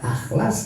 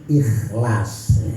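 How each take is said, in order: First: The word begins with an a vowel. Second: The word begins with an i vowel. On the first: The speaker calls it wrong. "Jangan dibaca akhlas" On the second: The speaker calls it right. "tapi harus ikhlas ya"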